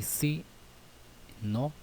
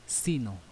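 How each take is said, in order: First: "si no" split by a long pause, "si" pitched higher; teacher spacing out "si" and "no"; separated words. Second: "sino" in one piece, stressed on "si", falling; teacher demonstrating joined "sino"; joined as one word. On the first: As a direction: say "si" high, pause, then "no". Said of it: "por separado". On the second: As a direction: say "sino" unbroken, falling away on "no". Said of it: "junto, dice". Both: Shown as a demonstration.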